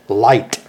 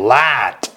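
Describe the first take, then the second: First: The vowel is short and clipped. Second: The vowel is long and drawn out. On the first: The speaker calls it right. "Here's how you say it in the North" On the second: The speaker calls it wrong. "You're dragging it out too long. You're saying light"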